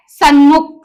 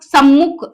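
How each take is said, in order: First: सन्मुख said with a clear n before m, "sun-mukh"; common wrong form. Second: सम्मुख with a doubled, held m, "sam-mukh"; correct form. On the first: Teacher showing students the wrong form, सन्मुख with n. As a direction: sound the wrong सन्मुख as people say it, with n. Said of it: "हम बोलते हैं सन्मुख". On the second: Teacher giving students the right form, सम्मुख with double m. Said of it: "सम्मुख होता है". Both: Shown as a demonstration.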